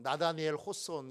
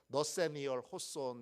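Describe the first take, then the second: First: The first name starts with na-da sounds. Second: The first name starts with neo-se sounds. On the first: This is the older way of reading it. "전에는 나다니엘 호손 이렇게 읽었는데" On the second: This is the current way, following the original pronunciation. "요즘은 발음 그대로를 쓰도록 해서 요즘은 너세니얼 호손 이렇게 부릅니다"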